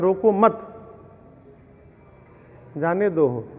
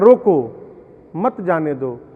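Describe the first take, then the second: First: The pause comes right after 'mat'. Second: The pause comes right after 'roko'.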